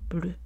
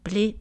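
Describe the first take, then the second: First: The vowel is a rounded front vowel. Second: The vowel is unrounded, like ay. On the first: This is the French form. "ici, on a les voyelles antérieures arrondies" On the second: This is the Haitian Creole form. "quand on enlève l'arrondissement"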